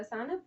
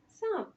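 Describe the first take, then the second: First: سانپ with a full ن, like sa-n-p; teacher's wrong take of سانپ with an audible n; wrong clear noon. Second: سانپ with a nasalized vowel and no n, saanp through the nose; teacher's correct nasal سانپ; nasal noon. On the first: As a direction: say سانپ wrongly with the n fully sounded. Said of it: "ایک غلط تلفظ ہو جائے گا سانپ". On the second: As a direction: say سانپ with the ن only as nasal sound. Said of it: "یہ ناک سے پڑھا جا رہا ہے". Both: Shown as a demonstration.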